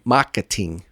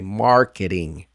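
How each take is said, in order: First: The T is a crisp, fully released T. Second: The T is a light, quick D-like tap. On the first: The speaker calls it wrong. "Don't say marketing" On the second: The speaker calls it right. "Say marketing"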